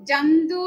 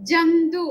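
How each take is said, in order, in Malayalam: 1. ആദ്യ സ്വരം ശുദ്ധമായ തുറന്ന 'a' ആണ്. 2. ആദ്യ സ്വരം ശുദ്ധമായ തുറന്ന 'a' ആണ്.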